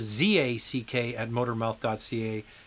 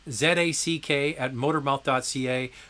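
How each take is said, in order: First: The letter Z is said the American way, zee. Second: The letter Z is said the Canadian way, zed.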